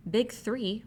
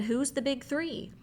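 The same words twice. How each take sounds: First: Said in the usual way. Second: High, slow puzzled question; Randy asks in slow surprise. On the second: Acted. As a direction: ask it slowly, baffled and high.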